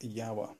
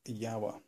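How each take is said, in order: First: The name is pronounced the Czech way. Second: The same.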